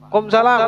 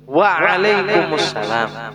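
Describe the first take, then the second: First: The opening syllables are dropped, leaving 'kumsalam'. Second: Every syllable is said, starting with 'waalaikum'. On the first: The speaker calls it wrong. "yang jawab kadang yang kurang-kurang betul" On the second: The speaker calls it right. "Harusnya yang yang benar, yang bujur itu"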